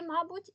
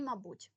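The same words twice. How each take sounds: First: «мабуть» as МА-буть, high and loud; stress on first syllable. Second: «мабуть» as ма-БУТЬ with a falling end; stress on second syllable. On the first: (наголос на перший склад: «мАбуть») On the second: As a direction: lean on the last syllable of «мабуть». (наголос на другий склад: «мабУть») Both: Shown as a demonstration. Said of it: "В цьому слові є подвійний наголос".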